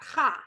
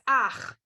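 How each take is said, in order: First: The vowel comes after the ch sound. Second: The vowel comes before the ch sound. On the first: The speaker calls it wrong. "not cha" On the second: The speaker calls it right. "it's ach"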